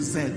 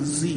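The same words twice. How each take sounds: First: The letter is named with the speaker's own pronunciation. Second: The letter is named with an American pronunciation. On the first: "We say Z" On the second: "Like Americans say letter Z"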